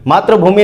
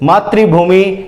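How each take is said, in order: First: The first part is pronounced 'matra'. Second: The first part is pronounced 'matri'. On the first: The speaker calls it wrong. "मातृभूमि नहीं" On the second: The speaker calls it right. "मातृभूमि यानी धरती माता"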